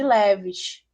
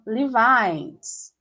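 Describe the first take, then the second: First: It is said with a Brazilian Portuguese pronunciation. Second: It is said with an English pronunciation. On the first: This is how people in Brazil say it. "a gente tem uma marca de roupa que a gente chama de" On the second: This is how people abroad say it. "E lá se chama"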